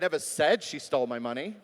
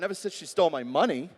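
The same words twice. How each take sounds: First: The word 'said' carries the main stress. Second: The word 'money' carries the main stress. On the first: It was communicated some other way. "Maybe it was in an email" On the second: She stole something else. "Well, maybe she stole my heart"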